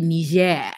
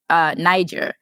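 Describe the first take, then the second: First: The name is said with a French pronunciation. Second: The name is said with an English pronunciation. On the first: "French speakers ... they call it" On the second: "English speakers will say, you know"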